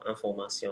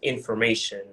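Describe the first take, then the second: First: The word is pronounced with French sounds. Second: The word is pronounced with English sounds. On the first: "instead of" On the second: "using words or pronouncing words in the French, the English way"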